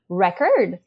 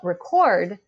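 First: The stress is on the first syllable. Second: The stress is on the second syllable. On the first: It is a noun. "if it's a noun, it's usually the first syllable that will be stressed... record, that's the noun" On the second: It is a verb. "If it's a verb, it's the second syllable that will be stressed... record, that's the verb"

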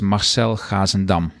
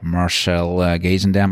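First: The name is said with a Dutch pronunciation. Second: The name is said with an English pronunciation. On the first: "if you want to pronounce it in Dutch" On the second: "in English it would be like"

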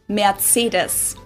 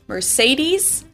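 First: It is said with a German pronunciation. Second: It is said with an American English pronunciation. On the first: "In German, we pronounce it Mercedes" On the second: "So most Americans call this Mercedes"

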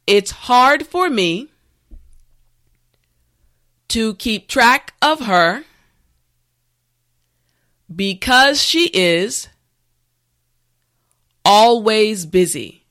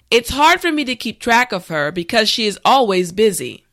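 First: The sentence is said slowly and carefully. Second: The sentence is said at a natural speed. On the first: "this time repeat after me" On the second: "this time we will go at a more natural pace"

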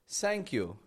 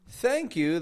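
First: The first sound is close to s. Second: The first sound is a soft th. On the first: The speaker calls it wrong. "Making an S sound" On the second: The speaker calls it right. "instead of saying thank you"

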